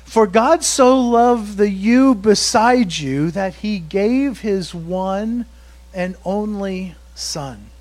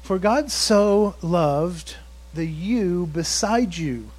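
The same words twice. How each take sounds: First: Slow, building emphasis on you and only; stretched, weighty delivery of one and only son; emphatic verse reading. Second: Slow, deliberate, leaning on the new words; slow, pointed verse variation; new twist on verse. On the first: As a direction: drive the verse home slowly. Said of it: "But he does". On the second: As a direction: read it slowly so it lands. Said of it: "But how about this one?". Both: Shown as a demonstration.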